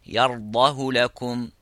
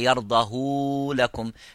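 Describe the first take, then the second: First: The vowel after the h is kept short. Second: The vowel after the h is lengthened. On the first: The speaker calls it right. "just say يرضاه لكم" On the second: The speaker calls it wrong. "you don't say"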